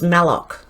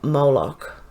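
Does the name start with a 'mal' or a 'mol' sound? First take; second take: mal; mol. First: The name starts with a 'mal' sound. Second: The name starts with a 'mol' sound. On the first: The speaker calls it right. "It's Malloch" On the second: The speaker calls it wrong. "not Moloch"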